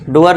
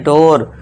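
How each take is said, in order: First: The vowel is a long oo sound. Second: The vowel is an o sound. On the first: The speaker calls it wrong. "डोर नहीं" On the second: The speaker calls it right. "ओ का आ गया"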